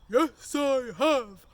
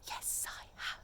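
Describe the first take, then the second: First: It is said in a big, loud voice. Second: It is said in a quiet whisper. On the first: "have you brought your big voice?" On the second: "You'd have to reply in a whisper"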